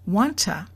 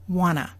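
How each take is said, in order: First: The T stays and the vowel becomes a. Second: The T is dropped and the vowel becomes a. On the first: "The vowel oo has become a" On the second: "the oo changed to a, and number two, the T sound is gone"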